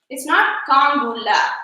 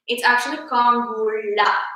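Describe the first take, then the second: First: The la is said with an ordinary l sound. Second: The la is said with a different l sound. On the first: The speaker calls it wrong. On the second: The speaker calls it right. "It's a different la"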